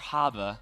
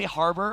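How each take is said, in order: First: The r sounds are dropped, Boston style. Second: The r sounds are clearly pronounced.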